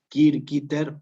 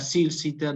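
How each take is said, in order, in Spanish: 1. Las c son duras, como el sonido k. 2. Las c son suaves, no suenan como k.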